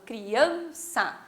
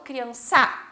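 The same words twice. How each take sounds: First: The stress is on the middle syllable. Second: The stress is not on the middle syllable. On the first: The speaker calls it right. "o an fica mais forte" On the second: The speaker calls it wrong. "não falo criança"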